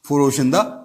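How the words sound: The word ends in an 'a' vowel. "हम उर्दू में अगर फारसी बोलेंगे ना ... सीधा सीधा फरोशंदा कहेंगे"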